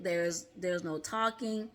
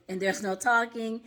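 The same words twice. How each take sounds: First: Slower and softer meditation instruction; calm guided meditation. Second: Said in the usual way. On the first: Shown as a demonstration. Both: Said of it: "that's the first thing you're gonna be told to do".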